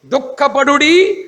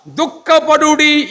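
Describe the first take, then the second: First: దుఃఖపడుడి slow with a rising end; slow దుఃఖపడుడి left hanging up; questioning echo. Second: దుఃఖపడుడి high and slow with a falling end; raised slow దుఃఖపడుడి landing down; emphatic call. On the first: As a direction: stretch దుఃఖపడుడి and lift it at the end. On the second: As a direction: lift దుఃఖపడుడి up and stretch it. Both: Shown as a demonstration. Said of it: "దుఃఖపడుడి repeated".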